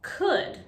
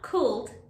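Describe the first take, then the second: First: The L sound is silent. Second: The L sound is pronounced. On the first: The speaker calls it right. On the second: The speaker calls it wrong. "not could"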